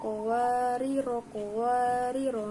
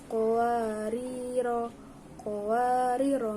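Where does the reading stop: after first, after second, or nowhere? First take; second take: nowhere; after first. First: Both words are short and joined without stopping. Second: It stops on a long first word, then continues. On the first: "kedua-keduanya dibaca pendek-pendek" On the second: "qawariro yang pertama itu dibaca panjang, kemudian qawariro yang kedua dibacanya pendek"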